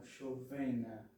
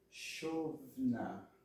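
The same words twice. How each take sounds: First: "chovena" with a sounded e after the v; wrong pronunciation. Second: "chovna" in two careful syllables; correct pronunciation. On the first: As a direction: stress the middle syllable of "chovena". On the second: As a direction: stress "chov", no vowel after the v in "chovna". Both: Shown as a demonstration. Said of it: "e não chovena".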